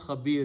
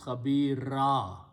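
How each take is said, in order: First: The word ends on a consonant sound. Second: The word ends on a long vowel sound. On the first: The speaker calls it wrong. "you don't pronounce khabir" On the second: The speaker calls it right. "you pronounce khabira"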